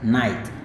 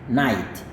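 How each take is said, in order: Both takes have the same delivery.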